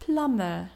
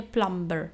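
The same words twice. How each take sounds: First: Plumber said "plammer", no b; plumber, b left out; silent b. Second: Plumber with a spoken b, "plamber"; plumber, sound the b wrongly; plumber, lower, b pronounced. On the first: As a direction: plumber smooth "plamer". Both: Shown as a demonstration. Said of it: "a nie plumber".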